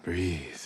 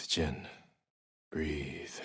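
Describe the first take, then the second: First: Said in the usual way. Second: Soft. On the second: Real, not acted. Calming himself in the bath.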